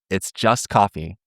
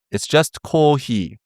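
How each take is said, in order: First: Said in the usual way. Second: Coffee said the Japanese way, slow; "coffee" as a Japanese speaker would say it; a playful Japanese-accented "coffee". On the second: Shown as a demonstration. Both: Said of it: "that's how you say coffee in Japanese".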